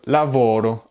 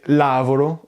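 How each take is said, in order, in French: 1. L'accent tombe sur la syllabe attendue. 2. L'accent tombe sur une syllabe inattendue. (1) "au lieu de lavoro" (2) "Comme si je disais lavoro"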